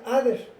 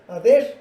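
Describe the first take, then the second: First: "other" said with an English th sound. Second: "ader" with a flat Spanish d sound; Spanish-style ader. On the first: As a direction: give "other" its proper English th. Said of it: "se pronuncia other". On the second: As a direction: say "ader" the way a Spanish speaker would. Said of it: "nosotros esto normalmente lo pronunciaríamos". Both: Shown as a demonstration.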